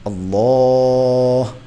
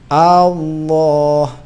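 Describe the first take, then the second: First: The opening vowel is kept short. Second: The opening vowel is drawn out long. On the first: The speaker calls it right. "bacaannya Pak Jokowi itu bagus" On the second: The speaker calls it wrong. "kalau alifnya itu panjang"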